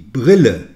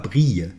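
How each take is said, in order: First: The double L is pronounced as a clear L. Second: The double L sounds like a y glide. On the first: The speaker calls it right. "On prononce le L" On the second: The speaker calls it wrong. "ne dites pas brille"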